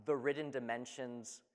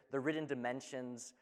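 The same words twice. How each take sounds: The two takes are said the same way.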